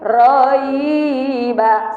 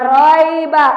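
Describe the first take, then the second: First: The vowel glide ends in an i sound. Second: The vowel glide ends in an e sound. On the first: The speaker calls it right. "tapi dibaca i" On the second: The speaker calls it wrong. "tidak boleh dibaca e"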